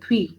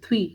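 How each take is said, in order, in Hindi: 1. th और v ध्वनियाँ एक समूह (क्लस्टर) बनाती हैं। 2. th और v ध्वनियाँ एक समूह (क्लस्टर) बनाती हैं।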